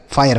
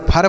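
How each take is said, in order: First: फायर with an "aay" glide, lower pitch; correct reading. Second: फर in one short syllable; wrong reading. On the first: Teacher gives students the right answer, फायर with aay glide. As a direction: say फायर as "faa-yar". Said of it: "इसका सही उच्चारण हो गया फायर". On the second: Teacher rules out a misreading, फर with short uh. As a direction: say फर as "phur", no glide. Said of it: "इसे ना तो फर पढ़ेंगे". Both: Shown as a demonstration.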